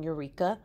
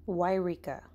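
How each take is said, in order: First: The name starts with a 'you' sound. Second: The name starts with a 'why' sound. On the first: The speaker calls it wrong. "I was saying Eureka, but apparently that's not how you say it" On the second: The speaker calls it right. "this is how you say it"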